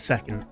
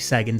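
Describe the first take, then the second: First: The middle consonant is a k sound. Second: The middle consonant is a g sound. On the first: "instead of second" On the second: "I usually pronounce the C as a G"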